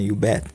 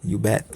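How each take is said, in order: The two takes are said the same way.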